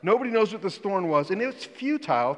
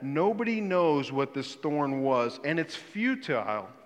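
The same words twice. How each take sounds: First: It is said in a British English accent. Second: It is said in the speaker's usual accent.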